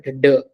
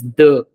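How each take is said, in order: First: "the" with a hard English d; the wrong, hard-D version of "the". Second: "the" with a soft dental d; softer French D sound on "the". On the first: Teacher showing students what "the" is not, hard D. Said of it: "It's not the". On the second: Teacher showing French D as "the", softer sound. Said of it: "a softer one". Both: Shown as a demonstration.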